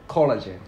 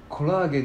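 First: It is said with an English-style pronunciation. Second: It is said with Japanese katakana pronunciation. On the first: The speaker calls it right. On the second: The speaker calls it wrong.

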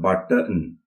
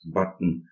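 First: The t sound is fully released. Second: The t sound is held and unreleased. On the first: The speaker calls it wrong. "It's not button" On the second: The speaker calls it right. "unreleased button"

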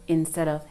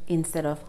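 The two takes are said the same way.

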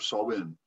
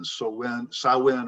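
First: The first syllable rhymes with "saw." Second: The first syllable rhymes with "cow."

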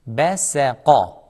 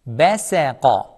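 The two takes are said the same way.

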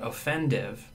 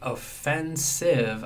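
First: The middle consonant is a 'd' sound. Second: The middle consonant is an 's' sound. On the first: The speaker calls it wrong. "I'm using the wrong pronunciation for that morpheme offend" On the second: The speaker calls it right. "instead of saying offensive"

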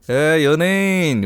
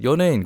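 First: It is said in a teasing, snide tone. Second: It is said in a plain, neutral tone. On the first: The speaker is being subtly mocked. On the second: The word itself is just a good word.

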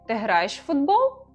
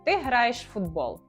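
First: It is said with question intonation. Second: It is said with statement intonation. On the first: It asks whether this is true. "Питання ... Інтонація" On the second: It states a fact. "Стверджувальне речення в українській мові звучить як"

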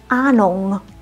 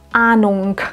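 First: The word ends with an ng sound. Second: The word ends with a k sound. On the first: The speaker calls it right. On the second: The speaker calls it wrong. "dass man kein K am Ende ausspricht. Also bitte nicht das Ahnung"

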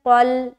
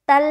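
First: The first consonant is heavy, with rounded lips. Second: The first consonant is light, with unrounded lips. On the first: The speaker calls it right. "मुंह को गोल करते हुए" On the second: The speaker calls it wrong. "तल नहीं बोलना"

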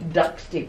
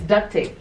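First: It is said carefully, with the t pronounced. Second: It is said quickly, with the t dropped. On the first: "but it's really duct tape" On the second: "If you say it quickly"

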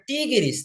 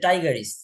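First: The start does not sound like 'tiger'. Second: The start sounds like the English word 'tiger'.

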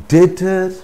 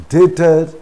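The two takes are said the same way.

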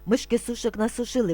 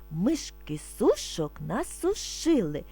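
First: It is spoken very fast. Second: It is spoken slowly and calmly. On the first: "А тепер дуже швидко" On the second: "Спочатку ми будемо вимовляти спокійно, не спіша"

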